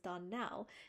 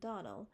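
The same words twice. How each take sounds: First: The stress is on the last syllable. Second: The stress is on the first syllable. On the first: The speaker calls it right. "accent on the last syllable" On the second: The speaker calls it wrong. "you pronounce our name Donnell"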